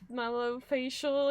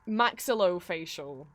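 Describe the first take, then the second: First: The word begins with the shortened sounds 'malo'. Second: The word begins with the full sounds 'maxillo'. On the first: The speaker calls it wrong. "I'm not gonna say this right" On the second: The speaker calls it right. "What was it?"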